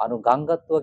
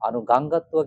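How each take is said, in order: First: The two words are merged into one run. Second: The same.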